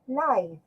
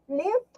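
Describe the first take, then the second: First: The vowel is long, as in five. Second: The vowel is short, as in give. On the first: It means in person. "that is in person" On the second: It means to survive or reside. "to survive or to reside"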